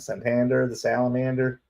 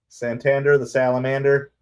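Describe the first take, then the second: First: It is said in a Southern American accent. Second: It is said in a plain, neutral accent.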